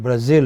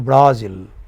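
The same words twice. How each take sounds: First: The stress is on the second syllable. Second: The stress is on the first syllable. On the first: The speaker calls it right. "you say Brazil" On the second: The speaker calls it wrong. "You don't say Brazil"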